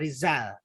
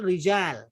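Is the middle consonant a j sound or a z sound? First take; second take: z; j. First: The middle consonant is a z sound. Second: The middle consonant is a j sound. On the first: The speaker calls it wrong. "di Indonesia biasanya Rijal itu pakai Z ya" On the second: The speaker calls it right. "yang betul pakai jim"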